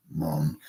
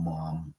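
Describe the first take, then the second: First: "Mom" with a short British "uh" vowel; British "Mum". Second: Said in the usual way. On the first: Shown as a demonstration. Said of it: "call things like they call 'em up there". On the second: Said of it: "not call things like they call 'em up there".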